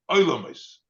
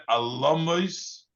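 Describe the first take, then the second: First: "Oilomos" opening on an oi diphthong; read as Oilomos. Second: "Alomos" starting with a short plain a; read as Alomos. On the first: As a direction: say "Oilomos" with oi at the start. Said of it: "but Oilomos". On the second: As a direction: say "Alomos" with an opening a, not oi. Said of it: "Don't pronounce it as Alomos". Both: Shown as a demonstration.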